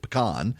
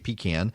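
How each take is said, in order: First: It is said the South Louisiana way. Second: It is said the South Georgia way.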